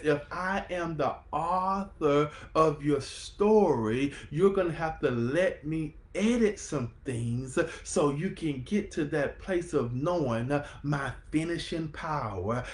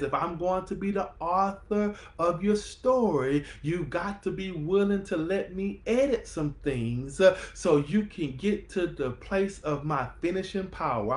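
First: Slower retelling. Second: Fired-up telling. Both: Acted. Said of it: "I'm gonna say that one more time".

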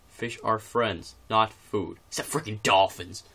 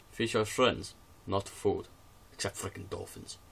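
First: Slow, loud mock Russian accent; slow hammed-up Russian accent read. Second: Said in the usual way. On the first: Shown as a demonstration. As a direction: ham up a thick Russian accent, slowly. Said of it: "then I'm urging to do the actual accent". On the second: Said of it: "so I'm gonna say it in Russian".

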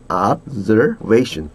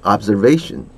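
First: Observation slowly, with a clear "z" in the middle; Z sound in observation. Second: Said in the usual way. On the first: Shown as a demonstration. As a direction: stretch Observation out as ob-zer-VAY-shun. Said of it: "중간에 Z 발음 있습니다". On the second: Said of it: "해보세요".

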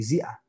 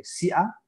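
First: Zia with a soft voiced z, buzzing; soft z sound. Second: Sia with a sharp voiceless s like Spanish s; hard s. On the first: Teacher contrasting sia and zia for students, soft z. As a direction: start zia with a gentle buzzing z. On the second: Teacher contrasting sia and zia for students, hard s. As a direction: say sia crisply with a hissed s. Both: Shown as a demonstration. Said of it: "si notan ustedes, hay una diferencia".

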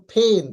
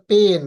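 First: "ফেন", pen with a puffed PH; breath burst opening "ফেন"; aspirated P. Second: "পেন" with a plain P, no puff; everyday hard P in "পেন"; unaspirated P. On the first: Teacher correcting how we say pen, aspirated P. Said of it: "কিন্তু উচ্চারণ করব ফেন". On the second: Teacher quoting the usual way, unaspirated P. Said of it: "আমরা পেন বলে থাকি". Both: Shown as a demonstration.

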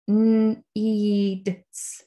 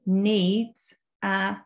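First: Needs stretched sound by sound; sounding out words. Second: Said in the usual way. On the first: Shown as a demonstration. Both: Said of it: "you can sound out the words".

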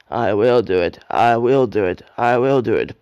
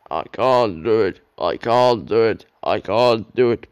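First: Loud, determined puffing chant; louder, effortful chant stressing WILL. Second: Loud, strained engine chant; louder puffing chant of a struggling engine. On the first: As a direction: push every word out with effort. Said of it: "puffed Edward". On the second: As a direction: heave out each line like a straining engine. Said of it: "puffed Gordon". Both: A narrator's reading.

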